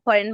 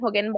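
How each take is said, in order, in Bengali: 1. মাঝের ব্যঞ্জনধ্বনিটি একটি সাধারণ r ধ্বনি। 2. মাঝের ব্যঞ্জনধ্বনিটি g-এর মতো শোনায়।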